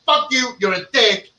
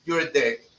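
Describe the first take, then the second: First: Aggressive doll line. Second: Soft and gentle, "You're a dick" said quietly and kindly; gentle doll line. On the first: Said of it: "really aggressive is gonna be". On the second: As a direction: say it sweetly, like a gentle scolding. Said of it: "You know, gently". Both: Pretend.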